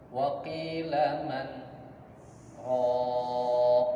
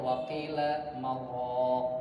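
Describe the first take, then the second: First: A brief stop separates man from raq. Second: The n merges into r without a stop. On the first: It asks who will heal. The speaker calls it right. "ini dipisah" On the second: It sounds like a word for a dough mixer. The speaker calls it wrong. "kalau disambung"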